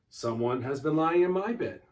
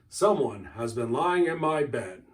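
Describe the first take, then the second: First: It is said in a medium-sized bear's voice. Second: It is said in a great big bear's voice.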